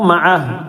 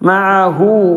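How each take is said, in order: First: The word ends on a bare consonant. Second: The word ends with a final vowel. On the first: The speaker calls it right. "നിർത്തുമ്പോൾ മഅഹ്" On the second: The speaker calls it wrong. "എന്ന് പറയരുത്"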